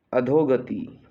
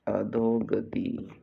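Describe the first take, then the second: First: Said in the usual way. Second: "अधोगति" slow, vowels held; stretched for dictation. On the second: Shown as a demonstration. Teacher dictating a spelling, अधोगति drawn out slowly. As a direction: draw out अ, धो, ग, ति in "अधोगति".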